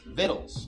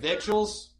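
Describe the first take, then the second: First: It is said like 'vittles', without a 'k' sound. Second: It is said as spelled, with a 'k' sound. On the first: The speaker calls it right. "it's victuals, okay? Victuals is how you pronounce that" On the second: The speaker calls it wrong. "that word that looks like victuals"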